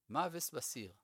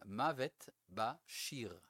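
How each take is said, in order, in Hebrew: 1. יש בו תנועות ליטאיות, ו-s במקום sh. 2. יש בו תנועות של עברית תקנית וצליל sh.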